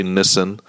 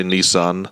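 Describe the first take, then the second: First: Nissan said as NISS-un, short first vowel; South African pronunciation. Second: Nissan said as NEE-sahn, long ee; American pronunciation. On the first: Host quoting the guest's way, Nissan as NISS-un. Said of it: "I know you say Nissan". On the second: Host showing their own way, Nissan as NEE-sahn. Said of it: "but we say Nissan". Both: Shown as a demonstration.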